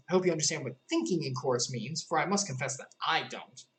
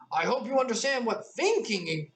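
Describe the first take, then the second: First: Said in the usual way. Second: Put-on lifted, girlish Alice line; Alice, higher voice. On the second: A narrator's reading. Alice confessing to the passengers, higher and girlish. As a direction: pitch it up as the young girl. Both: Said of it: "I'm sorry".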